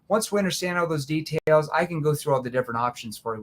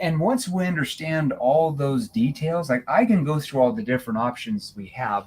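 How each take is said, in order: First: It is spoken quickly without pauses. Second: It is spoken slowly with measured pauses.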